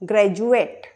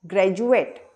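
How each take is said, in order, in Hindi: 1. बीच का व्यंजन 'j' ध्वनि है। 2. बीच का व्यंजन 'j' ध्वनि है।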